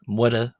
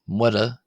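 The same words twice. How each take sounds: The two takes are said the same way.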